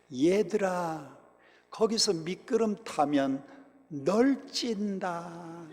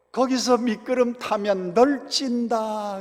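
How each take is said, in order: First: Mild imitation of a prim Seoul tone with Gyeongsang words, slow; Seoul-style Gyeongsang dialect. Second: Higher, slower mock Seoul lilt with Gyeongsang words; exaggerated Seoul-Gyeongsang mix. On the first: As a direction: gently mimic the pastor's careful Seoul lilt, then drawl 널찐다 slowly. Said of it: "우리 전도사님이 서울 말씨를 쓴다고". (서울 말씨를 흉내 낸 경상도 사투리, 느리게) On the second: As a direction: ham up the pastor's Seoul accent on a Gyeongsang word. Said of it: "말투는 서울 말씨인데 경상도 사투리". (높고 느리게 과장한 서울 말씨의 경상도 사투리)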